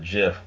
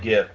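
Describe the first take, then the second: First: The word begins with a J sound. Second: The word begins with a hard G sound. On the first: The speaker calls it wrong. "I'm not calling it a GIF. It's not peanut butter" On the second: The speaker calls it right. "It's gonna be called a GIF"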